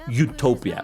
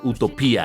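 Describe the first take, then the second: First: It is said with an English accent. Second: It is said with a Spanish accent.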